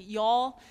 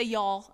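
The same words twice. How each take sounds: First: "Y'all" in a light Kentucky twang, a touch louder with a rising end. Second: Said in the usual way. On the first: Shown as a demonstration. Speaker shows the ladies her Kentucky "Y'all", in a light twang. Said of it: "I fall into the y'all twang". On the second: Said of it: "I am from Kentucky".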